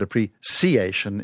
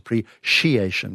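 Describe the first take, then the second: First: The middle consonant is an s sound. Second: The middle consonant is a sh sound. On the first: "appreciation is second" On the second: "appreciation with a sh"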